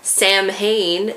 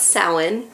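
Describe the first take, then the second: First: It is said letter by letter, like 'Sam-hain'. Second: It is said with a silent mh, like 'Sow-in'. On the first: The speaker calls it wrong. "if you try to pronounce it how it is spelled" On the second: The speaker calls it right. "It's actually pronounced Samhain"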